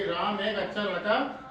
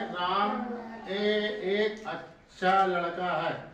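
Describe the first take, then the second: First: It is read smoothly and quickly in one flow. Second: It is read haltingly, breaking up the words.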